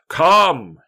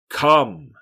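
First: The word is yelled loudly. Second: The word is said at a normal volume.

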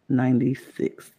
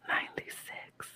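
First: It is said in a normal voice. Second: It is said in a whisper.

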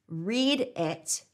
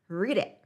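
First: The two words are said separately. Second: The two words run smoothly together.

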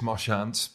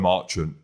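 First: The name is said with a French pronunciation. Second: The name is said with an English pronunciation. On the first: The speaker calls it wrong. "in your French it is Marchand" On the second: The speaker calls it right. "but in English it's Joe Marchant"

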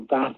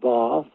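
First: It is said in a northern Liverpool accent. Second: It is said in a posh southern accent.

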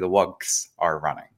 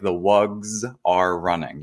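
First: The plural ending is a hissing S sound. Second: The plural ending is a buzzing Z sound. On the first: The speaker calls it wrong. "You don't say" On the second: The speaker calls it right. "it's actually a little bit more of a Z sound than an S sound"

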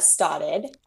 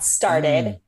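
First: It is said without the r, in a Boston accent. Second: It is said with the r sound, in a standard accent. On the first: The speaker calls it right. "Like Boston accent" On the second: The speaker calls it wrong. "Not started"

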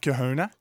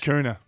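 First: The H sound is pronounced. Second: The H sound is dropped. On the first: The speaker calls it wrong. "Not Kahuna" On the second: The speaker calls it right. "just Kahuna. ... Take the H out"

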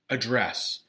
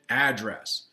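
First: The stress is on the second syllable. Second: The stress is on the first syllable. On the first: It means to speak to someone. "you have to change the pronunciation and you have to change it to address" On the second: It names the place where someone lives. "You live at an address. And of course, that's a noun"

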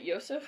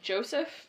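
First: The name begins with a Y sound. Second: The name begins with an English J sound. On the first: "some people pronounce it Yosef" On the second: "I've heard some people pronounce it Joseph"

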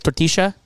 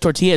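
First: The double L sounds like sh. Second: The double L sounds like a y. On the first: "every double L is like sh instead of l" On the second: "instead of tortilla"

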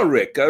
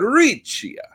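First: The name is said with an Americanized pronunciation. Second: The name is said with its original Sicilian pronunciation. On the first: The speaker calls it wrong. "once it gets to America, we mess it all up" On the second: The speaker calls it right. "That's how it was said in Sicily"

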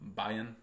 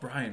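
First: The name is said without an r sound. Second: The name is said with an r after b. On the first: The speaker calls it wrong. "someone said my name weird yesterday. They were like" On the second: The speaker calls it right. "she corrected herself"

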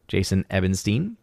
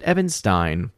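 First: The name ends with a 'steen' sound. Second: The name ends with a 'stine' sound. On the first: "Is it Steen or Stein?" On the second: "Or is it Ebenstein?"

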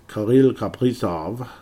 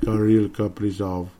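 First: The name is said with a French accent. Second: The name is said without a French accent. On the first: The speaker calls it wrong. "why the French accent, pardon me" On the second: The speaker calls it right. "It's more like"

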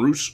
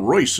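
First: The vowel is a long 'oo' sound. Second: The vowel is 'oy', ending in an s sound. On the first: The speaker calls it right. "he pronounced his name Roos" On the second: The speaker calls it wrong. "Alan Royce is what I was calling him"

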